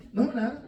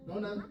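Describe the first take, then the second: First: Wife's "No, nada" snapped a bit louder, rising; snappy denial. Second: A touch of a wife's sulky "No, nada", softer; curt sulky reply. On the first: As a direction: bite it off, annoyed. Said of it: "wife answers again, sharper". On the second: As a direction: mutter it shortly, brushing him off. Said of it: "wife answers curtly, sulking". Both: Retold or imitated.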